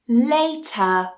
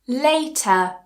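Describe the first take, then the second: No difference in how they are said.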